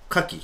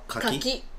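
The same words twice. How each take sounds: First: It carries the oyster word's pitch accent. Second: It carries the persimmon word's pitch accent. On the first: It names the shellfish from the sea. "海のやつ" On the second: It names the fruit. "果物はカキ"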